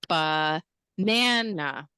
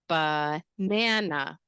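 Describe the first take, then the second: First: The stress is on the middle syllable. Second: The stress is on the middle syllable.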